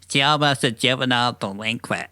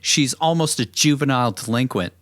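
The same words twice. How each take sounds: First: It is said in a put-on character voice. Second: It is said in a plain narrating voice.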